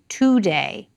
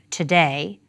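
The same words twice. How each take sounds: First: The first vowel is full, like 'two'. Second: The first vowel is reduced, like 'ta'. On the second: "in general American English, we have today, which is actually ta plus day"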